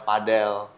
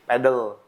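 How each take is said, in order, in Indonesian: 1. Diucapkan cara Spanyol, seperti padel. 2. Diucapkan cara Inggris, seperti pedal. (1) "cara pronunciation mereka jadi banyak yang ngomongnya ke padel" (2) "secara pronunciation English, itu yang benar"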